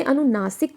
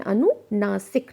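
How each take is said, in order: First: Said in the usual way. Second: अनुनासिक drawn out syllable by syllable; अनुनासिक, each syllable separate; slow, spelled-out term. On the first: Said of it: "इसे अनुनासिक कहते हैं". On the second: Shown as a demonstration. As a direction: say अनुनासिक very slowly and clearly. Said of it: "नासिक means नाक से जुड़ा हुआ".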